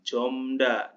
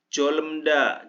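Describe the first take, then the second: First: No l sound is pronounced before the m. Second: An l sound is pronounced before the m. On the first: The speaker calls it right. "jomda dibacanya" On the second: The speaker calls it wrong.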